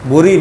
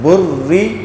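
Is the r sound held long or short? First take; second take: short; long. First: The r sound is short. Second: The r sound is held long. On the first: The speaker calls it wrong. "बुरी पढ़ेंगे तो शद नहीं होगी" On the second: The speaker calls it right. "जिस हरफ पर शद होती है उसमें थोड़ा सा ठहराव लाना है"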